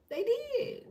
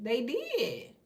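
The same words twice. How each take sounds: First: "They did" jumped much higher, squeaky insistence; high emphatic echo. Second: Said in the usual way. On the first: Real, not acted. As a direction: toss it back up high, half-mocking.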